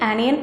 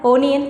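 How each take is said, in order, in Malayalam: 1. ഈ വാക്ക് 'ah' സ്വരാക്ഷരത്തിലാണ് തുടങ്ങുന്നത്. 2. ഈ വാക്ക് 'oh' സ്വരാക്ഷരത്തിലാണ് തുടങ്ങുന്നത്. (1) "ശരിക്കും ആനിയൻ എന്ന് തന്നെയാണ്" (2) "അറിയാതെ ഓണിയൻ എന്നേ വരുന്നുള്ളൂ"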